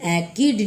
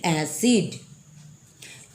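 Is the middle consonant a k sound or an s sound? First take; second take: k; s. First: The middle consonant is a k sound. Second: The middle consonant is an s sound. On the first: The speaker calls it wrong. "ये एकिड नहीं होगा" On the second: The speaker calls it right. "बल्कि एसिड"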